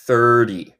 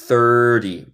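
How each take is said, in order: First: The middle t is a quick tapped sound. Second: The same.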